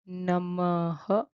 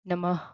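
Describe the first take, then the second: First: The final h sound is full and strong. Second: The final h sound is reduced and light. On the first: "If you are having trouble, you can say namaha, like namaha" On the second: "You can reduce the H sound and make it little less"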